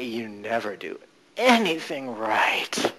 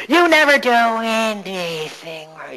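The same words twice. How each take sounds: First: Much slower, lower and softer; slowed, softened. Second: Slow, higher nagging mother voice. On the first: Coach softening the mother's voice, low and slow. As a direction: let the nag melt down low and soft. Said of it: "slowing it down and making it softer". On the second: Coach voicing the nagging mother gremlin, slow and higher. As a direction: drag out the nag like a mother. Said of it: "your nagging mother". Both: Shown as a demonstration.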